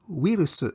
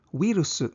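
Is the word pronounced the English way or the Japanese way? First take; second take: Japanese; Japanese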